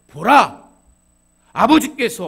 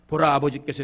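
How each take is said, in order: First: There is a pause after the first word. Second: The words run together without a pause. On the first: The speaker calls it right. "끊어읽기를 잘해야 그 느낌이 다가와요" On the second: The speaker calls it wrong. "이렇게 하면 안 돼요"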